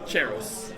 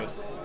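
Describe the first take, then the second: First: The name begins with a ch sound. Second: The name begins with a hard k sound.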